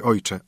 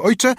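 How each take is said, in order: First: Said in the usual way. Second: "ojcze" with a sharp upward lift; "ojcze" sung upward as a call; rising call. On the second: Acted. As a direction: fling "ojcze" up high and bright. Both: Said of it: "ojcze said twice differently".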